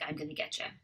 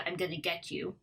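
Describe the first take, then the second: First: Get and you blend into one word, getcha. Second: Get and you are said as separate words. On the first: "ends up sounding more like" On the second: "it could be"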